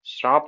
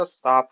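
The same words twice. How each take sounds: First: श्राप with an r after the first sound; wrong form. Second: शाप with no r sound; corrected form. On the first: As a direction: say श्राप with the र cluster. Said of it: "श्राप नहीं होता". (श्राप, र जोड़कर) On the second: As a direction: say शाप, dropping the र. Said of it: "साप होता है". (शाप, बिना र के) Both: Shown as a demonstration.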